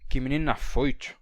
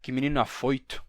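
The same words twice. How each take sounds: First: The t in afoito sounds like a full ch. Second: The t in afoito is only slightly ch-like. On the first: "dizendo assim" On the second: "numa palatalização mais leve"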